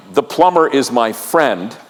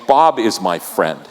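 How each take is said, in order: First: Said in the usual way. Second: Intimate. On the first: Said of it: "is a lot different than saying". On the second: Shown as a demonstration. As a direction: say "Bob" like a close friend's name. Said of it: "There's an intimacy that happens when you use the name".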